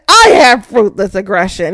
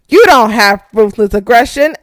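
First: "I" punched at the start; stress on I. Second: "you" punched at the start; stress on YOU. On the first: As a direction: hit "I" to claim it for yourself. Retold retort, I against you. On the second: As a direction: hit "you" as an accusation. Retold retort, you against I. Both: Retold or imitated.

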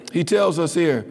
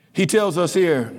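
Both takes have the same delivery.

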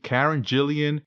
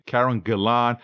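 First: "Karen Gillan" as KAR-en JILL-ee-en; alternate name pronunciation. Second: "Karen Gillan" as KAR-en guh-LAHN; alternate name pronunciation. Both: Shown as a demonstration. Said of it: "say it all types of ways".

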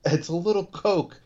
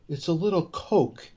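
First: Higher mock Richie, dismissive; mimicking Richie. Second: Higher, lightly voiced mock Richie; mimicking Richie. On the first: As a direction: shrug off "little" in a pitched-up voice. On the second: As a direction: toss off "little" like it's nothing, pitched up. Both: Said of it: "The way he says it to him".

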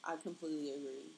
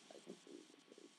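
First: Said in the usual way. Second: Whispered echo, fast. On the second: Real, not acted. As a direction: breathe it out, quick and low. Echoing own words under breath.

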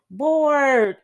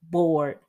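First: Bored pushed higher and louder; bored said high and loud with a long fall; stressed bored. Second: Said in the usual way. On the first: Shown as a demonstration. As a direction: lean hard into bored, falling.

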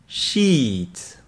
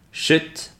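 First: Sheet with a long ee. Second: Shit with a short lax i. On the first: Repeating the pair for learners, long ee in sheet. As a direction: hold the ee in sheet. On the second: Repeating the pair for learners, short i in shit. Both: Shown as a demonstration. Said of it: "Donc je répète".

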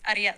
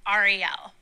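First: "Ariel" said ah-dee-EL, the r tapped almost like a d; "Ariel" the Spanish way, tapped r and the stress on EL; Spanish pronunciation. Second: "Ariel" said AH-ree-el, open AH and a clear English r. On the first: Comic showing how her Spanish dad's side says her name. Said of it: "Spanish people say it". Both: Shown as a demonstration.

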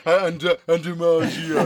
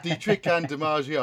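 First: Loud hesitant stammer, a beat behind; stumbling over the line, loud and slowed; mock fumbling late line. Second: Said in the usual way. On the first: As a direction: ham up being late and lost. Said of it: "And I'm like". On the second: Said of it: "You're like".

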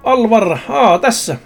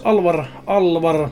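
First: Found it. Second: Slow muttering search. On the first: Finding the name in the book. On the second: Searching the book for a name. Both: Acted.

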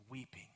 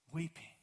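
First: Weeping said sorrowfully under the breath; hushed weeping word. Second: Weeping said again at normal level; repeated for weight. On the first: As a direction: let weeping fall away soft and low. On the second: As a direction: lift Weeping back up to land it. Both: Shown as a demonstration.

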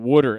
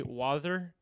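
First: "Water" said as "wudder", Jersey style; New Jersey accent on "Water", a flapped wudder. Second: "wather" with a soft lisped t; lisped "wather", slushy soft t; lateral lisp. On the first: Retold or imitated. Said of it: "I'm gonna start talking like Pete". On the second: Shown as a demonstration. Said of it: "where they say "wather".

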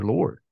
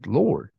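First: Said in the usual way. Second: "Lord" repeated with heavy emphasis; stress on Lord. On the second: Retold or imitated. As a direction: lean hard on "Lord" so its weight lands. Repeats the word for weight.

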